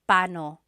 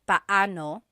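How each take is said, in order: First: The two a vowels merge into one. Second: The two a vowels are said separately. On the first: It is the quick everyday form. "But when speaking quickly, Filipinos just say pano" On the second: It is the careful, technically correct form. "When there are two vowels together, you say them separately"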